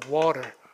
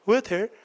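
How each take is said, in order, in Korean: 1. t는 살짝 굴리고 r은 소리 냅니다. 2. t와 r을 둘 다 발음합니다. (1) "미국식이 강세가 이렇게 앞에 오면요. 모음사의 t는 약간 굴려" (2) "호주 사람들은 T도 하고 R도 해"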